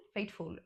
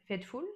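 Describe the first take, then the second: First: "Faithful" said slowly, carefully, in a French speaker's English; "Faithful" pronounced with an English accent, a bit hesitant; English pronunciation. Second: Said in the usual way. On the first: Shown as a demonstration. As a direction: try "Faithful" the English way, softer and slower. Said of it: "mon accent est vraiment, euh, nul de chez nul". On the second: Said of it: "Faithful, I'm sorry".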